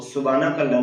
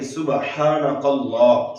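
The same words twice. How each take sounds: First: Fast सुबहानकल्लाह with the ह dropped; hurried wrong recitation; wrong rushed version. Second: सुबहानकल्लाह with a clear breathy ह after सुब; careful correct recitation; correct pronunciation. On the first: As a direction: rush सुबहानकल्लाह, no breathy ha. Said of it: "सुबहानकल्लाह नहीं पढ़ना". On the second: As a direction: sound the ह in सुबहानकल्लाह plainly. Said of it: "बल्कि". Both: Shown as a demonstration.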